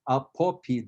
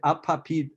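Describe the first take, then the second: First: The unstressed o vowels sound like o. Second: The unstressed o vowels sound like a. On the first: This is how it is said in Ukrainian. The speaker calls it right. "In Ukrainian, again, if it's O, it's always O" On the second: This is how it would be said in Russian. The speaker calls it wrong. "So in Russian, you would say apopid"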